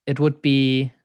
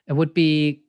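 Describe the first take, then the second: No difference in how they are said.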